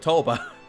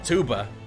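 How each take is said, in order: First: The vowel is an 'oh' sound. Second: The vowel is an 'oo' sound. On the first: The speaker calls it right. "she's a toba" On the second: The speaker calls it wrong. "she's not a tuba"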